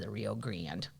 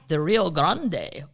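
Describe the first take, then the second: First: The name is said with a Midwestern pronunciation. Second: The name is said without a Midwestern pronunciation.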